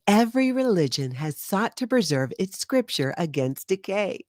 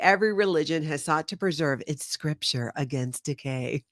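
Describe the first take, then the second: First: It is read in a put-on Scientology presenter voice. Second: It is read in the speaker's normal voice.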